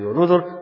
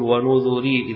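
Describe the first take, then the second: First: The word ends in a bare r sound. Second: The word ends in r followed by ee. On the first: "هذه قراءة الجمهور بالسكون على الراء الساكنة" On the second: "ويعقوب يقول ونذري إذا وقف عليها"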